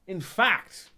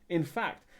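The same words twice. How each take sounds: First: Accidentally loud burst, much higher and louder; sudden loud start; too loud. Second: Said in the usual way. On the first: Real, not acted. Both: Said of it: "oh, that was a bit loud, sorry".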